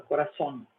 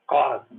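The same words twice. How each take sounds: First: Coração said as korasón, stressed at the end and closed with a clear n; Spanish corazón. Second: Coração said as koraso with no n at the end; wrong Spanish pronunciation. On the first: Teacher giving students the correct Spanish coração. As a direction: end coração on -son with the n sounded. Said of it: "A gente fala coração". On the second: Teacher ruling out another wrong coração for students. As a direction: end coração on an open -so and drop the n. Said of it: "nem coração". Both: Shown as a demonstration.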